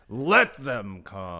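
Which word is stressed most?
let. The word let is stressed heavily.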